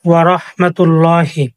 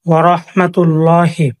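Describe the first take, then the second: The two takes are said the same way.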